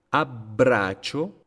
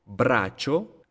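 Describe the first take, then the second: First: Abbraccio slow, with stops on BB and CC, rising; held double B. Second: Braccio with a stop before "cho", rising; held double C. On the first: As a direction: pause after "ab" in abbraccio. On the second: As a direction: hold the CC inside braccio. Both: Shown as a demonstration. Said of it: "la pausa que hago".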